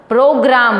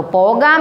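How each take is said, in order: First: प्रोग्राम said with a clear r, pro-gram; प्रोग्राम shown as the right form, with the r sounded; correct pronunciation. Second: पोगाम said without the r sound, as po-gaam; पोगाम with no r, a deliberate wrong reading; wrong pronunciation. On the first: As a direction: roll the r in प्रोग्राम, pro-graam. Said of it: "प्रोग्राम होता है". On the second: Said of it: "पोगाम नहीं होता". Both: Shown as a demonstration.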